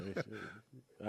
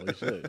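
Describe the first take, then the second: First: Much softer, murmured repeat of we should; quiet aside. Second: Higher, teasing we should; playful agreement. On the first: Host repeating the bar idea to himself, quiet aside. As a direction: drop it to an aside under the breath. Joking about bar outing. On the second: Host joking about a bar night with colleagues, playful. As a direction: toss it off brightly and high. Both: Real, not acted.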